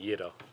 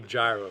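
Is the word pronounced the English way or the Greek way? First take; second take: Greek; English. First: It is said with a Greek pronunciation. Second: It is said with an English pronunciation. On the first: "For speaking Greek, I'll say gyro" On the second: "for speaking English, like, I could just say gyro"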